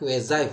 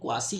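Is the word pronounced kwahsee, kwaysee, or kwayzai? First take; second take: kwayzai; kwahsee. First: It sounds like kway-zai, ending in zai. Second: It sounds like kwah-see, ending in see. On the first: The speaker calls it right. "इसका correct pronunciation जो होता है होता है क्वेजाई" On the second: The speaker calls it wrong. "बहुत सारे लोग इसको क्वासी या क्वेसी बोलते हैं"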